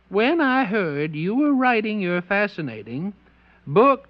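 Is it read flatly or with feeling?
flatly. It is read flatly, without much feeling.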